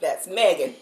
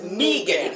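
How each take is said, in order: First: It is said the usual way. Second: It is said the local way. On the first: It names a girl. "If we're talking about a girl" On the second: It names the local road. "But that road is"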